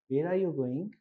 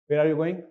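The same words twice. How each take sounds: First: It is said in a very soft, gentle voice. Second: It is said in a sharp, commanding voice. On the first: It sounds like a calm, meditative group member. "very soft tone" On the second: It sounds like a strict army guard questioning someone. "they would have a different tone"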